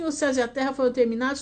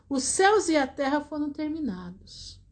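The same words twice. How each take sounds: First: It is read quickly, rushing through the words. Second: It is read slowly, lingering over the words. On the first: The text is skimmed without thinking. The speaker calls it wrong. "ler a Bíblia correndo" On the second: The text is read carefully and pondered. The speaker calls it right. "ler assim, assim, e pensar"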